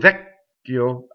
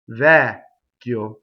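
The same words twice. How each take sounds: First: The first vowel is cut short before the stop. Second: The first vowel is held long before the stop. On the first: The speaker calls it wrong. "I don't do vecchio and cut the vowel short" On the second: The speaker calls it right. "I do the double C by going up to the C and then just stopping"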